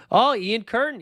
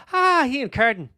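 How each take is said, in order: First: Said in the usual way. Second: High, playful mock Irish accent; hammed-up Irish greeting; attempted Irish accent. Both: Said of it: "The accent fell apart there".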